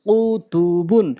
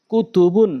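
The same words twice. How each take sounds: First: Drawn-out syllable by syllable reading; slow demo. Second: Short vowels, syllables run together; quick reading. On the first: Teacher repeating the word for learners, slowly. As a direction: stretch each syllable for learners. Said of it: "প্রথমে আমি slow বলছি". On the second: Teacher showing how it must be read, quickly. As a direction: read it briskly as one word. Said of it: "দ্রুতটা উচ্চারণ করতে হবে". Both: Shown as a demonstration.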